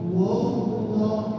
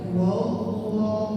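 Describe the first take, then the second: First: The 'wa' sound is thick and heavy. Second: The same.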